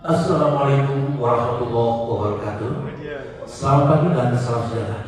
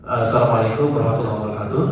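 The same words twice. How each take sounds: First: Steady, dignified formal greeting; a hint of a formal event host. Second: Fast, brisk official greeting; a hint of an upacara announcer; ceremony MC greeting. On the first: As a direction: greet the room like an official emcee. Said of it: "Itu M C formal". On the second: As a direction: rattle it off like a ceremony host. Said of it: "Upacara peringatan". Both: Shown as a demonstration.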